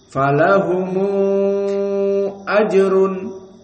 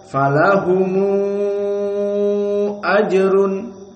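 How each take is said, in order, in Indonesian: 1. Huruf m diikuti vokal u penghubung. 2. Huruf m diikuti vokal u penghubung.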